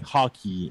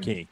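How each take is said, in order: First: The word is said with an English accent. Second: The word is said with a French accent. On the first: The speaker calls it wrong. "they don't say hockey in French" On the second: The speaker calls it right. "They say"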